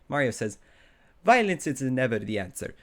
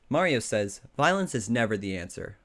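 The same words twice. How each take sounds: First: It is said in a put-on Italian accent. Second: It is said in the speaker's plain accent.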